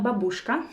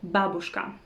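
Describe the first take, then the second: First: The stress is not on the first syllable. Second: The stress is on the first syllable. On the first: The speaker calls it wrong. "it's not babushka" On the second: The speaker calls it right. "The correct stress is on the first syllable"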